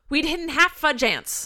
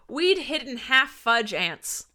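First: It is said quickly, running together. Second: It is said at a normal, careful pace.

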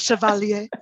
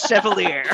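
First: The word is said with a French pronunciation. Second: The word is said with an American pronunciation. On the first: "the very French version" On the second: "the very American one"

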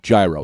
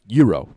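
First: The word is pronounced the American English way. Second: The word is pronounced the native Greek way. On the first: "So I'll pronounce it like an American" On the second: "I know the correct pronunciation is gyro"

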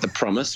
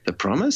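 First: It is said boldly, falling like a statement. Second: It is said rising like a question. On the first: It is a confident statement. "which is like bold" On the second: It is an uncertain question. "Like question mark"

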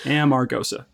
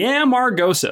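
First: It is said in a plain, everyday accent. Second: It is said in an old-time prospector accent. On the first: "It's Amargosa" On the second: "She says it kind of is like a 49ers miner would say it"

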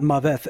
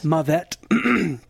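First: The word ends with a th sound. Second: The word ends with a plain t sound. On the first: The speaker calls it wrong. "And not Maveth, as the professor" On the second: The speaker calls it right.

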